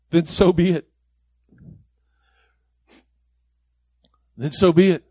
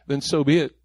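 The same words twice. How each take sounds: First: Louder with each repeat; building preacher's refrain. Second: Said in the usual way. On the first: Acted. Preacher echoing Paul's surrender to the congregation, growing louder. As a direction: land the refrain harder each time.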